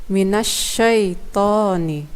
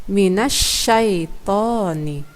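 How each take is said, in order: No difference in how they are said.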